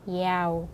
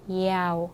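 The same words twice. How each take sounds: First: The word begins with a y sound. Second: The same.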